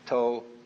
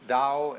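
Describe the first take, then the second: First: It is pronounced the Cantonese way. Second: It is pronounced the Mandarin way.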